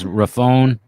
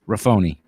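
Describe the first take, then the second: First: The name ends without a final 'ee' sound. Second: The name ends with a final 'ee' sound. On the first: The speaker calls it wrong. "it's usually mispronounced as Raffone" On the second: The speaker calls it right. "but Raffoni"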